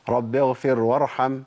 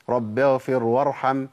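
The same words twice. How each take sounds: The two takes are said the same way.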